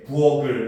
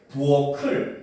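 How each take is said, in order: First: The final consonant links as a plain sound. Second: The final consonant links as an aspirated sound. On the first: The speaker calls it wrong. "이런 거는 잘못된 발음이에요" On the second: The speaker calls it right. "이렇게 발음해야 됩니다"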